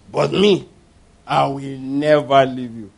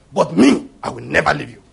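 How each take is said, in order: First: Slow, low, overblown pledge; solemn drawn-out vow. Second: Emphatic first word, then lower promise; brisk, self-assured pledge of loyalty; boastful vow. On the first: Peter swearing loyalty to Jesus, solemn drawn-out vow. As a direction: stretch out the promise with grand self-assurance. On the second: Peter setting himself above the other disciples, boastful vow. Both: Acted.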